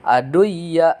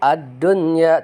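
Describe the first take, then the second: First: The n before the y is merged away. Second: The n before the y is clearly pronounced. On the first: The speaker calls it wrong. "tidak dibaca aduya" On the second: The speaker calls it right. "dibaca jelas"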